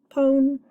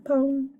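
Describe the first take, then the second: First: Pone with a long o, said higher; pone modeled. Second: Pone with a long o, rhyming with phone; pone modeled. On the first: Teacher reading the pseudo word to students. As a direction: announce pone crisply. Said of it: "Silent E syllable". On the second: Teacher repeating the word pone for students. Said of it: "Rhymes with phone". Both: Shown as a demonstration.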